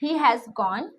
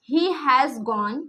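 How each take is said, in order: First: Said in the usual way. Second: Each word stretched out slowly for writing; slow dictation. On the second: Shown as a demonstration. Teacher dictating to students, very slowly. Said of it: "He has gone (written out)".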